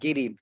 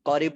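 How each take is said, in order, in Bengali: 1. শব্দটি 'g' ধ্বনি দিয়ে শুরু হয়। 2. শব্দটি 'k' ধ্বনি দিয়ে শুরু হয়। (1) "সহজ বানাই দিবে" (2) "তো ওরা করিব বলবে না"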